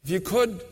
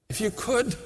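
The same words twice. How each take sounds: The two takes are said the same way.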